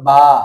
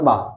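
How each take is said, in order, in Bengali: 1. স্বরধ্বনিটি টেনে দীর্ঘ করা হয়েছে। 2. স্বরধ্বনিটি ছোট করে হ্রস্ব করা হয়েছে। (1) "আলিফ যদি হয় তখন হবে বা" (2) "বা জবর বা, কোনো টান নাই"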